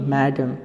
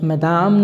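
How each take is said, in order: First: It is said like 'mai-dam' with a short second vowel. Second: It is said like 'ma-daam' with a long second vowel. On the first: The speaker calls it right. "ये मैडम" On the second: The speaker calls it wrong. "धड़कन movie की तरह मदाम मत बोलिए"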